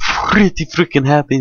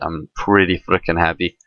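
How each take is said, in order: First: It is said in a put-on foreign accent. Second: It is said in the speaker's normal accent.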